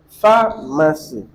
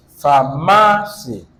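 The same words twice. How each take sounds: First: Slow "pharmacy", leaning on the first syllable; stress on first syllable. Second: "pharmacy" slowly, with MA raised and lengthened; slow "pharmacy", leaning hard on the middle syllable; stress on middle syllable. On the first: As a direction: stress the PHAR in "pharmacy", syllables drawn apart. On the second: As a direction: stress the MA in "pharmacy", starting low. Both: Shown as a demonstration. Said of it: "where are we stressing".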